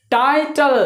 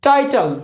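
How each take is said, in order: First: टाइटल split into टाइ and टल; syllable-by-syllable demo. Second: Said in the usual way. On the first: Shown as a demonstration. Teacher shows learners two vowel sounds in टाइटल, syllable by syllable. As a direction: say टाइटल in two separated beats, टाइ then टल. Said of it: "कितने vowel sound आता है". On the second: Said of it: "टाइटल में देखिए कितने vowel sound".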